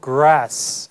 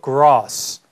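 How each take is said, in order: First: The vowel is a flat front a sound. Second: The vowel is a long open ah sound. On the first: "grass 아니고" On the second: "영국식 발음으로 grass"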